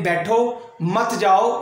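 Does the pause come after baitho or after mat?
after baitho. There is a pause after baitho.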